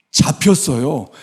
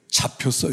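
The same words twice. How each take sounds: First: 잡혔어요 said slower, with firm weight; emphatic repeat. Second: Said in the usual way. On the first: Real, not acted. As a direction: drive home 잡혔어요, drawing it out.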